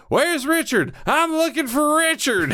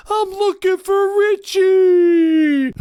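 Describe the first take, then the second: First: High, mock-serious demand; a lightly voiced tough-guy demand; Locke's entrance. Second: Very slow, high, loud mock tough-guy line; Steven Seagal impression. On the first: Locke walking into camp asking for Richard, high and mock-serious. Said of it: "when he's like". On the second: Quoting Steven Seagal's entrance in a slow, loud hammed-up voice. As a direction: drag it out like a hammed-up action hero. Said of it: "Above the Law with Steven Seagal".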